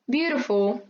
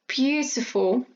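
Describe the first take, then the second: First: The middle T sounds like a soft R. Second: The middle T is a crisp, clear T. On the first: "Americans sometimes tend to butcher those sounds so that they sound more like R" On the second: "in British English, you get a clear T and D sound"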